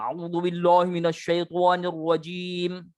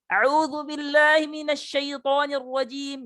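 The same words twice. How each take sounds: First: It is mumbled with puffed cheeks, sounding muffled. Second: It is said with the jaw swung, sounding distorted. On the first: "Menggembung-gembungkan mulut, bergumam" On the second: "Atau membelok-belokkan rahang"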